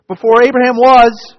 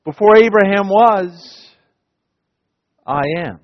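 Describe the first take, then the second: First: Before Abraham was, cried out high and loud; ringing proclamation. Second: Understated, intimate I am; quieter Jesus voicing. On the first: Acted. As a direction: proclaim it with full force. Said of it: "Listen, listen, verily, verily". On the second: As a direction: say it the way you imagine him. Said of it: "I imagine".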